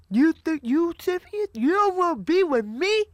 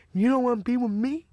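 First: Higher-pitched, incredulous imitation of a rejected man; mock indignant disbelief. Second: Imitating a rejected man's hurt question; mild mock disbelief. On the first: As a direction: act out wounded pride rising in pitch. Acting out rejected Roscoe, escalating. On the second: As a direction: lightly act out wounded surprise. Acting out rejected Roscoe's first reaction.

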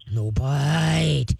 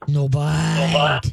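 First: Very slow, low "ah, no bite" dragged out; low slow command. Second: Very slow, low "ah, no bite"; low slow command. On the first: Trainer demonstrating the deep correction voice for the owner. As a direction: stretch "ah" long, then "no bite" low and firm. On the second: Trainer showing the owner a low, slow correction. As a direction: drag out "no bite" low and firm. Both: Shown as a demonstration. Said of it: "The lower and slower and deeper your voice is".

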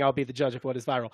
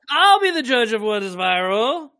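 First: Quieter, lower echo of the impression; a hint of the tech CEO; Mark Zuckerberg. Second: Slow, raised impression voice; higher, stretched-out celebrity parody; Mark Zuckerberg. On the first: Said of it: "that's a pretty good impression". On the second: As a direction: draw the line out, pitched up, as a parody tech boss. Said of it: "I'll be Ma-, Mark Zuckerberg".

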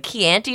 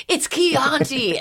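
First: Chianti with flat A as in "ant", questioning; Canadian pronunciation. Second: Chianti with long open AH, high and drawn out; mocking correction. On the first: Retold or imitated. Canadian answering Streisand's wine question, Canadian pronunciation. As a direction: say "Chianti" as kee-ANN-tee, rising. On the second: Streisand ripping her Canadian accent, mocking correction. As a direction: correct it grandly, "Chianti" as kee-AHN-tee, slowly. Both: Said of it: "ripping me for my Canadian accent".

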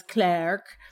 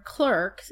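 First: "Clerk" said as "Clark"; English pronunciation. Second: Said in the usual way. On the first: Shown as a demonstration. Explaining the name's origin, English pronunciation of "Clerk" as "Clark". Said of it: "they pronounce it in England as". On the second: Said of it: "they pronounce it in England".

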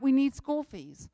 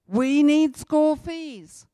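First: Said in the usual way. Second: We need school fees, slow and loud with weight on need; louder, slower insistent plea; slow emphatic repeat. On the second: Shown as a demonstration. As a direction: hammer home need, every word spaced.

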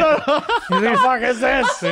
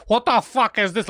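First: Drawn-out loud mock yell through laughter; mocking yell, laughing. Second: Slow, drawn-out outraged mock yell. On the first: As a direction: ham up her outraged scream, slowly and loud. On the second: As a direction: parody her scream at the kid. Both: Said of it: "But the way he said".

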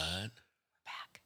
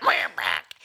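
First: Whispered sign-on, no voice. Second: Deep frog croak. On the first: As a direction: breathe it out in a hushed whisper. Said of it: "wait, shh". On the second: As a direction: drop way down into a low croaking voice. Mock frog sign-on, very low. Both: Pretend.

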